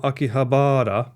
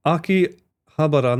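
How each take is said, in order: First: Akihabara with long, stressed BAA; rejected pronunciation. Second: Slow Akihabara with short ba-ra; correct pronunciation. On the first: Streamer showing chat the wrong way, Akihabara as aki-ha-BAA-ra. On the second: Streamer demonstrating to chat, Akihabara with short ba-ra. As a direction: say Akihabara as aki, HA-ba-ra. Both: Shown as a demonstration. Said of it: "not Akihabara".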